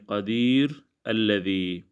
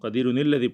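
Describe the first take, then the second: First: The first word ends, then 'alladhi' starts separately. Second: The words run together with a linking 'ni' sound. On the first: The reciter stops after the first word. "रुकते वक़्त" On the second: The reciter continues without stopping. "जब हम मिलाकर पढ़ेंगे"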